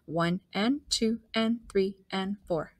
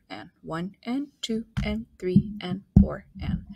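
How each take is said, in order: First: Said in the usual way. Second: Whispered counting; counting under breath. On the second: Shown as a demonstration. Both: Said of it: "everything that we write".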